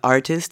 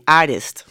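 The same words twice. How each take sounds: First: The word is said in a standard accent. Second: The word is said in a New York accent. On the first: The usual way of saying it. "Au lieu de dire artist" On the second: Someone else's habitual way of saying it. "elle dit artist"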